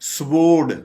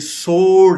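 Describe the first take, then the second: First: A 'w' sound follows the 's'. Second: No 'w' sound follows the 's'. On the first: The speaker calls it wrong. "इसको हम अगर ये कहेंगे तो ये हम गलत बोल रहे हैं।" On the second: The speaker calls it right. "W बिल्कुल साइलेंट है।"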